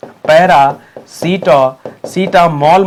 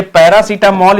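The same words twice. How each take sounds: First: "पैरासिटा-, सिटामोल" in slow, separate pieces; drawn-out syllables with a gap inside "paracetamol"; slow breakdown. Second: Said in the usual way. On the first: Shown as a demonstration. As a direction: break "paracetamol" apart, holding each piece. Teacher breaks up confusable word.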